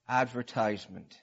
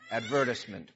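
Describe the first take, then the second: First: It is said the speaker's usual, American way. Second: It is said the way people overseas say it.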